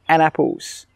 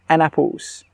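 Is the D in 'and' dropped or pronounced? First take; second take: dropped; dropped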